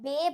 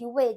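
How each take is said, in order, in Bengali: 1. শব্দটি b ধ্বনি দিয়ে শুরু হয়। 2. শব্দটি w ধ্বনি দিয়ে শুরু হয়। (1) "এই জন্য আমরা বে ভাগে বলছি না" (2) "ওয়ে বলছি"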